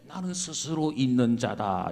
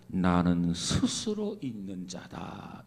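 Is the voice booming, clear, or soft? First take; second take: clear; soft. First: It is said in a clear, bright voice. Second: It is said in a soft, gentle voice.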